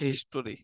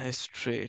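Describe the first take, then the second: First: The word has three syllables with a middle vowel. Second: The word has two syllables without a middle vowel. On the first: The speaker calls it wrong. "অনেকে এটা পরে হচ্ছে হিস্টোরি" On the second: The speaker calls it right. "হ্যাঁ, হিস্ট্রি, ঠিক আছে"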